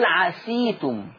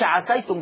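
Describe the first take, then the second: First: The s sound carries the vowel i. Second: The s sound carries the vowel a. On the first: The speaker calls it right. "ورش يقراها بكسر السين" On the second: The speaker calls it wrong. "ما يقولش عفيتم بفتح السين"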